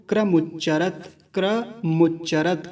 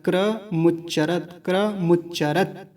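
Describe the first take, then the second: The two takes are said the same way.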